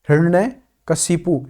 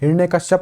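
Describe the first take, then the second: First: The name ends with the sounds 'kashipu'. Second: The name ends with the sounds 'kashyap'. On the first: The speaker calls it right. "ये होता है सही उच्चारण" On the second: The speaker calls it wrong. "नहीं होता है"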